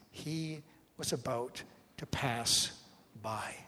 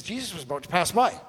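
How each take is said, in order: First: Slow, pausing between words, falling away at the end; measured Gospel reading. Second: Quick, rising to a startled finish; shocked rereading. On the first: Preacher quoting the Gospel writer to the congregation, slow and measured. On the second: Preacher showing how shocking the passage reads, quick and incredulous. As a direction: read it out as if you can't believe it. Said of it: "you'll find it shocking". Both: Acted.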